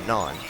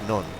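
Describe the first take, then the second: First: It uses a short, American-style O vowel. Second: It uses a long O with the final N. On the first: "In America, that would be non" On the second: "that O is a, uh, a long O, so it's non"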